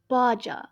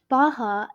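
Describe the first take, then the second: First: The middle consonant is a j sound. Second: The middle consonant is an h sound. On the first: The speaker calls it wrong. "instead of Baja" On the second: The speaker calls it right. "the J in Spanish is pronounced the H sound in English"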